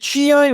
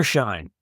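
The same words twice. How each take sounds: First: "Shein" in two syllables, SHEE-ine; alternative pronunciation. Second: "Shine" as one syllable; alternative pronunciation. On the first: Host asks co-host how it is said, "Shein" as SHEE-ine. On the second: Host offers co-host a second reading, "Shine" in one syllable. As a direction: say "Shine" like the English word. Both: Shown as a demonstration. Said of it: "is it Shein or Shine?".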